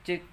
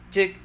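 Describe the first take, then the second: First: Low gain leaves audible background noise. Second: Excessive gain makes the voice clip and distort. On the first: "Jika gainnya kurang, ... ini akan timbul noise" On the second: "jika gainnya kegedean sampai ngeklip"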